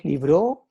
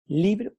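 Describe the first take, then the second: First: "libro" stressed on the last syllable, li-BRO; wrong final stress. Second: Said in the usual way. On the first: Shown as a demonstration. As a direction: say "libro" as li-BRÓ, rising on the end. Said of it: "No decimos libro". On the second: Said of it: "decimos libro".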